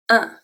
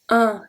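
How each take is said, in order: First: The nasal vowel is higher and brighter. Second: The nasal vowel is lower and more open. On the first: This is how it is said in the north. "in the northern France, ... So it's a higher sound" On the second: This is how it is said in the south. "When in the south, ... So it's lower"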